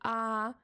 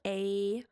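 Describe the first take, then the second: First: The letter is said as a pure 'ah' vowel. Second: The letter is said as the English 'ay' glide. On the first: "I do pronounce it kind of like in a Japanese fashion" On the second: "instead of"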